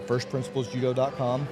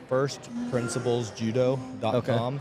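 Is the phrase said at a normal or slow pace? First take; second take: normal; slow. First: It is said at a normal, quick pace. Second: It is said slowly and deliberately.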